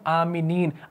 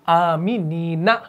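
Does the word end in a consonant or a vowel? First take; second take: consonant; vowel. First: The word ends on the consonant n. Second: The word ends with a final a vowel. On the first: The reader is stopping at the end of the verse. "साकिन बनाएंगे" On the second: This is the original form without a stop. "असल है आमीनीना"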